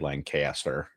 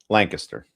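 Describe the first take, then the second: First: It is said the outsider, non-local way. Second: It is said the local Pennsylvania way. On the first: The speaker calls it wrong. "You don't say Lancaster" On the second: The speaker calls it right. "That's how you pronounce it in Pennsylvania"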